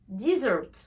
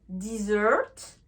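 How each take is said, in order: First: The stress is on the first syllable. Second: The stress is on the second syllable. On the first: It is the noun meaning a dry sandy region. "on va plutôt accentuer la tonalité sur la première syllabe" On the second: It is the verb meaning to abandon. "on va plus accentuer euh, le, le, la tonalité sur la deuxième syllabe"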